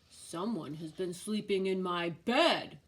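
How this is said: It is said in a big, deep voice.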